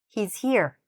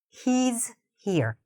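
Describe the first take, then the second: First: It is said at normal speed. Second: It is said slowly. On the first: "at a regular speed" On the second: "I'm saying it slowly at first"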